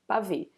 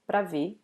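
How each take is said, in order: First: The first vowel and the r sounds are dropped. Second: The first vowel is dropped, leaving one syllable before ver. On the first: It is the most informal form. "some people even eat uh, this R" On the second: It is the usual everyday form. "people normally eat this first A, they say pra ver"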